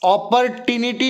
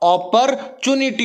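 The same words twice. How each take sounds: First: The ending is said as 'tinity'. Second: The ending is said as 'tunity'. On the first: The speaker calls it wrong. "अगर ऐसा बोलोगे तो वो टिनिटी हो गया" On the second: The speaker calls it right. "अपॉर्चुनिटी होता"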